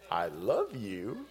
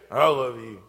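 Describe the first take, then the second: First: It is said warmly, with real feeling. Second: It is said grudgingly, without feeling.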